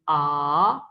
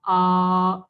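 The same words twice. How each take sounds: First: The pitch rises toward the end. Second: The pitch stays level throughout. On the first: "ये सेकंड है" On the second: "ये फर्स्ट थी"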